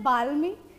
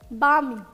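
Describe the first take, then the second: First: The L sound is clearly pronounced. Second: The L sound is left silent. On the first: The speaker calls it wrong. "we will not pronounce it as balmy" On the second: The speaker calls it right. "L is silent in this word. It is balmy"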